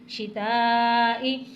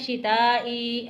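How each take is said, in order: First: The final vowel is short, not drawn out. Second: The final vowel is drawn out long. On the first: The speaker calls it right. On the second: The speaker calls it wrong.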